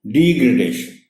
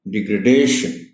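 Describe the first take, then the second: First: degradation stressed on the first di; degradation, first syllable punched; teacher shows the wrong degradation. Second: degradation with the stress on the second de; degradation, lean on the de; teacher models the right degradation. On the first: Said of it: "ये गलत होता है". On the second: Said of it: "stress इसमें दूसरी डी पर है". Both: Shown as a demonstration.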